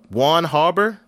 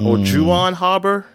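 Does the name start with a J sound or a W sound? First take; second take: W sound; J sound. First: The name starts with a W sound. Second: The name starts with a J sound.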